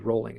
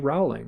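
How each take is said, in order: First: The first vowel sounds like the word oh. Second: The first vowel sounds like the word owl.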